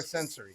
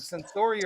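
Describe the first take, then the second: First: Sensory said as SEN-suh-ree; SEN-suh-ree pronunciation. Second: Sensory said as sen-SOR-ee; sen-SOR-ee pronunciation. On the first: Offering co-host the other option, Sensory as SEN-suh-ree. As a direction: stress the start of Sensory, with a reduced middle vowel. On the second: Asking co-host how the surname goes, Sensory as sen-SOR-ee. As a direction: stress the middle of Sensory, with an "or" sound. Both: Shown as a demonstration. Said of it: "how do you pronounce her last name".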